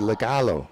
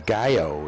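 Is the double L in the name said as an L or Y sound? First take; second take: L sound; Y sound. First: The double L is said as an L sound. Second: The double L is said as a Y sound.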